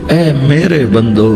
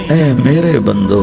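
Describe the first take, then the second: Both takes have the same delivery.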